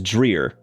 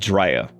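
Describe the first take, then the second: First: The name is said in an everyday local way. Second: The name is said with a strong old Southern accent. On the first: This is how most people say it. "everybody says Dreer" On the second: This is how an older Southerner says it. "the most old Southern thing"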